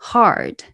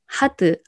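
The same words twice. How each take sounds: First: The word is said as one syllable. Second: The word is said as two syllables. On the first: The speaker calls it right. "아니고 hard" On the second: The speaker calls it wrong. "hard 아니고"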